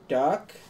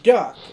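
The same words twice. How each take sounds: First: The word is said in a calm, plain voice. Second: The word is yelled loudly as a warning.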